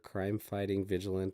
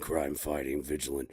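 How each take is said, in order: First: It is read in an ordinary speaking voice. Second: It is said in a put-on Batman voice.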